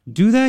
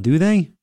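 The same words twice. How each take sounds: First: Pushing for an answer. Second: Said in the usual way. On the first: Real, not acted. Host pushes co-host to agree, higher and rising. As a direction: press the question again, reaching up high.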